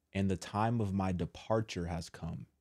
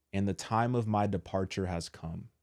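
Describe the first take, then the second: No difference in how they are said.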